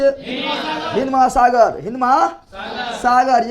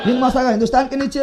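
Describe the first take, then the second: First: Slow, drawn-out classroom drill. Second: Fast, run-together answer; quick answer. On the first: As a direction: stretch each word out for the class to repeat. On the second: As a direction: rattle it off quickly. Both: Shown as a demonstration.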